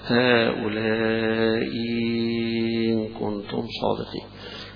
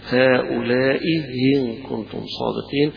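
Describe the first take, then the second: First: The second hamza becomes a long, stretched ya. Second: The second hamza is softened between alif and hamza. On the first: "بإبدالها حرف مد مشبع زي الأزرق" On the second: "بتسهيل الهمزة الثانية"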